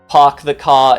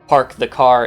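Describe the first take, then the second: First: It is said in a British accent. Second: It is said in an American accent. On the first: "newfangled Brits since the nineteen hundreds" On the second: "something close to more traditional and standard American pronunciation"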